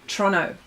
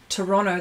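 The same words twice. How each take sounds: First: It is said the way local residents say it. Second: It is said the way outsiders say it. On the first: "people that live in Toronto ... they go Toronto" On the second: "they don't say the word Toronto"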